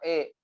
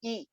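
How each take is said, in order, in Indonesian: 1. Vokalnya terdengar seperti e. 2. Vokalnya adalah i yang jelas. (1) "nggak boleh e" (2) "i yang jelas"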